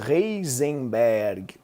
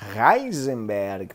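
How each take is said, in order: First: The name is said with a Portuguese-style pronunciation. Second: The name is said with its original German pronunciation. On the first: The speaker calls it wrong. "é o clássico Heisenberg" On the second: The speaker calls it right. "pronunciando corretamente"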